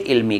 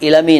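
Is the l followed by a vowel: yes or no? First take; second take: no; yes. First: The l runs straight into m with no vowel. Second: A vowel is heard between l and m. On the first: The speaker calls it right. "इल्मी कहेंगे" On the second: The speaker calls it wrong. "इलमी नहीं कहेंगे"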